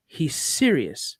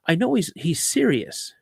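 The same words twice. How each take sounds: First: Serious drawn out slowly and firmly; slow emphatic repeat. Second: Said in the usual way. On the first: Real, not acted. Telling the host his son means it, slow and emphatic. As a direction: lean on serious, slow and grave.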